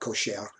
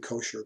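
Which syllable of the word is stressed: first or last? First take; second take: last; first. First: The stress is on the last syllable. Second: The stress is on the first syllable. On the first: The speaker calls it right. "the emphasis is always on the last syllable" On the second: The speaker calls it wrong. "it wouldn't be kosher"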